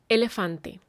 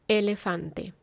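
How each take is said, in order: No difference in how they are said.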